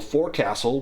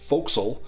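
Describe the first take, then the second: First: It is said fully, as it is spelled. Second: It is said in a clipped, shortened form. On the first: "words that don't sound like they're written" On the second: "which is pronounced forecastle"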